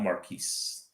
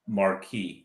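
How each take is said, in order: First: The final S is clearly pronounced. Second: The final S is not pronounced. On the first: The speaker calls it wrong. "not Marquise" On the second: The speaker calls it right. "The S is silent"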